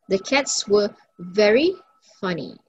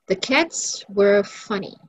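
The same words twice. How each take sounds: First: "very" set apart, pause before "funny"; stress on very. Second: Said in the usual way. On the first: Shown as a demonstration. Teacher practicing intensifiers with class, stressing "very". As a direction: lift "very", pause, drop on "funny". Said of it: "very to emphasize". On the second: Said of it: "The adjective here is funny".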